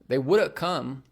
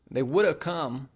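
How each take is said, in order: First: Would have is blended into woulda. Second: Would have is blended into woulda.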